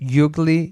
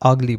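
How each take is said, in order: First: The word begins with a 'y' sound. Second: The word begins with a plain vowel. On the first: The speaker calls it wrong. "ইউগলি তো বলা যাবে না" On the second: The speaker calls it right. "আগলি বলতে হবে"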